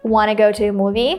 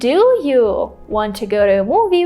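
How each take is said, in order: First: The start is reduced to one short word. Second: Every word at the start is said fully. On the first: "just say wanna" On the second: "Instead of saying"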